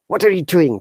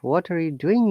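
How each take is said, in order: First: It is said in an angry tone. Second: It is said in a calm, cool tone. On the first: The speaker is upset at the listener. "out of anger" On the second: The speaker is simply asking casually. "if you're asking the cooler"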